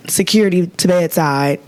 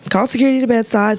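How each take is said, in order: First: Said in the usual way. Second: Higher and fast, urgent; excited emphasis. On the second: Real, not acted. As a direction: fire it off like an alarm. Repeated for emphasis.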